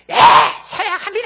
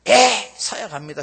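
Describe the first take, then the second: First: It is shouted loudly enough for all to hear. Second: It is said at a normal, quiet volume.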